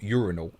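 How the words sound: It is said the American way. The speaker calls it wrong. "not urinal, unless you're in America"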